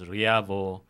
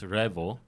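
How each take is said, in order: First: The name is said as 'Riavo'. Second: The name is said as 'Revo'. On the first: The speaker calls it wrong. "A lot of people pronounce it as Riavo" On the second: The speaker calls it right. "it's really pronounced as Revo"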